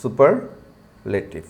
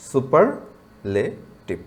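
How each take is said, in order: First: superlative slowly in two parts, super... লেটিভ; pause after super. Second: superlative very slowly in three parts, super... লে... টিভ; syllable by syllable. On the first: Teacher showing where we pause, superlative split slowly as super... লেটিভ. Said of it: "super, এইখানে এসে একটু থামি আমরা". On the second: Teacher asking students to try pronouncing, superlative slowly split into super, লে, টিভ. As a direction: separate লে from টিভ with a pause in superlative. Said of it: "একটু উচ্চারণ করার চেষ্টা করুন তো". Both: Shown as a demonstration.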